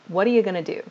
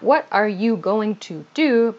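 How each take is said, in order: First: The words run together quickly, like whata ya gonna. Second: Every word is said fully and carefully. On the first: The speaker calls it right. "we pronounce this very quickly also" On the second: The speaker calls it wrong.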